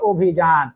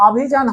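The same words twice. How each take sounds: First: অভিযান slowly, begun with round "o"; rounded "o" start. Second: অভিযান begun with open "aw"; open "aw" start. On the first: Teacher showing the correct form, অভিযান with round "o". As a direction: say অভিযান as "obhijan", closed first vowel. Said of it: "তখন সেটা হয় অভিযান". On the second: Teacher showing the rejected form, অভিযান with open "aw". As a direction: say অভিযান with an unrounded "aw" first vowel. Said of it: "তখন আর অভিযান হয় না". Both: Shown as a demonstration.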